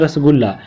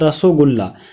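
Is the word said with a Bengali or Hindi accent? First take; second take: Hindi; Bengali. First: It is said the plain Hindi way, rasgulla. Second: It is said the Bengali way, rosogulla. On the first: "हम लोग यहाँ पे पढ़ते हैं" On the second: "वो लोग पढ़ता है"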